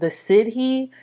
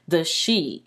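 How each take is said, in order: First: The word is said as 'sid-hee', two syllables. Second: The word is said as 'shee', one syllable. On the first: The speaker calls it wrong. "I've been mispronouncing this word. It's spelled like the Sidhi" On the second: The speaker calls it right. "it's actually pronounced the she"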